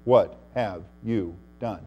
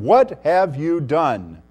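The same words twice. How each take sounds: First: "What have you done" low and soft, word by word; a pause after each word of "What have you done"; quiet, measured "What... have... you... done", gravely spaced; God's solemn question. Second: WHAT HAVE YOU DONE drawn out slowly at full voice; slow, ringing challenge on "What have you done"; challenging question. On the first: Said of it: "God can say to Nebuchadnezzar". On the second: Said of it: "No one can restrain his hand or say to him". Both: Acted.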